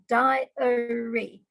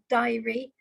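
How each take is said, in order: First: The word is said with three syllables. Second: The word is said with two syllables. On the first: The speaker calls it right. "as if it's three syllables" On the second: The speaker calls it wrong. "not diary"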